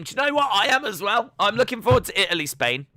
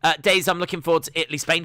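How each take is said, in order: First: Excited. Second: Said in the usual way. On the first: Real, not acted. Excitedly agrees with chat.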